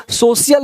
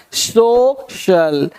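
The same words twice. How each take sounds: First: सोशल said as "so-si-yal", with an s sound; mispronounced social. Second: सोशल very slowly as "so... shal", with sh; corrected pronunciation of social. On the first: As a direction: read सोशल letter by letter, "so-si-yal", no sh. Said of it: "सोशल नहीं पढ़ना है". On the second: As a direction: stretch सोशल into two separate syllables, sh in the second. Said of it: "इसको सोशल नहीं पढ़ना है". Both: Shown as a demonstration.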